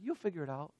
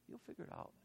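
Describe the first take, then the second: First: Said in the usual way. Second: Whispered repeat, almost no voice. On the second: Retold or imitated. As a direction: breathe the line as a secret whisper. Pastor repeating answer to friend.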